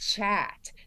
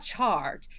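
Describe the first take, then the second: First: The R sound after the vowel is dropped. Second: The R sound after the vowel is pronounced. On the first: The speaker calls it right. "There's no R" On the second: The speaker calls it wrong. "it's not chart"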